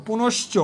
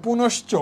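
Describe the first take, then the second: The two takes are said the same way.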